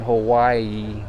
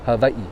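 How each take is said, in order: First: The middle consonant is a W sound. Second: The middle consonant is a V sound. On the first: The speaker calls it wrong. "It's not Hawaii, that's not how you say it" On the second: The speaker calls it right. "It's Hawaii. So the W is always a V"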